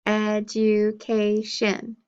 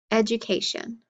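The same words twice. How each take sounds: First: "Education" slowly in four even beats; syllable by syllable. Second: Said in the usual way. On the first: Shown as a demonstration. Teacher counting syllables for pupils, "Education" syllable by syllable. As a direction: sound out "Education" as ed, u, ca, tion. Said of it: "Four syllables". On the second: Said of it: "clap for each syllable that you hear".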